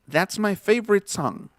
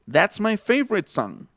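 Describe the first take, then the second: No difference in how they are said.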